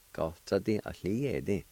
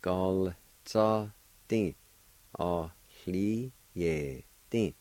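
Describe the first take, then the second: First: Said in the usual way. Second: Very slow, spaced syllables. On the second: Shown as a demonstration. Teacher joining both parts for learners, slowly syllable by syllable.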